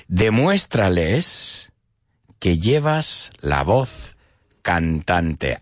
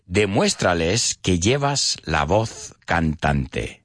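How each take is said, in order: First: Slow, in separated chunks with pauses; slow dictation. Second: Said in the usual way. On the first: Shown as a demonstration. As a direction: spell it out phrase by phrase for learners. Repeats phrase slowly for learners.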